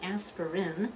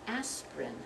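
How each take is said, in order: First: The word is said with three full syllables. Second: The word is said with only two syllables. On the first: The speaker calls it wrong. "not an aspirin" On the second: The speaker calls it right. "to only two syllables"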